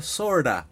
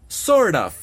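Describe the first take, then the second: First: "sorta" run together as one word; "sorta" ending in a plain "a", no f or v; reduced "sorta". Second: "Sort of" called out loud and high as a new term; "Sort of" said emphatically as two words; full form of "Sort of". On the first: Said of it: "que se pronuncia sorta". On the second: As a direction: announce "Sort of" loudly, falling. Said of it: "que es sort of". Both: Shown as a demonstration.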